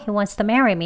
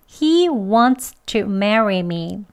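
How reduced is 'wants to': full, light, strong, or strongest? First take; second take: strongest; full. First: Wants to is fastest, with the t barely heard. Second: Every sound of wants to is fully pronounced. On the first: "더 빨리 약하게 발음을 하면요" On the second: "그대로 발음 다 합니다"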